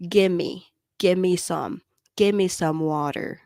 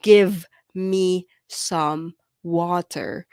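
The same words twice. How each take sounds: First: "Gimme" run together as one quick word; connected speech. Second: "Give me some water" said slowly, each word spelled out fully; careful, separated "Give me"; every word separate. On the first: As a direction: blend "gimme some water" the natural native way. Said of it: "I said". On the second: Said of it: "I did not say". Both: Shown as a demonstration.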